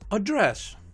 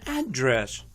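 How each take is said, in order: First: The stress is on the second syllable. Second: The stress is on the first syllable. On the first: It is used as a verb. "Two-syllable verbs are stressed on the second syllable" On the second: It is used as a noun. "Two-syllable nouns are stressed on the first syllable"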